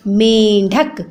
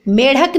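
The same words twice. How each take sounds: First: "मेंढक" with nasal first vowel; correct nasal sound. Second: "मेढक" without nasal n; wrong pronunciation. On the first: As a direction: lower "मेंढक", held men-dhak. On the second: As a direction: say "मेढक" as me-dhak. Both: Shown as a demonstration. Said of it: "मेढक नहीं होता".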